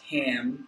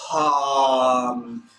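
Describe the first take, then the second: First: The sound is held back without pushed breath. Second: Breath is pushed out strongly at the start. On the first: The speaker calls it wrong. "try not to say just like ham and keep it back" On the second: The speaker calls it right. "in order to push that air out"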